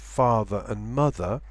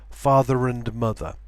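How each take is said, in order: First: No R sound links father to and. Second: An R sound links father to and. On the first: "Normally, when we pronounce father and mother, in the word father there is no R sound" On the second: "it sounds like you're saying rund"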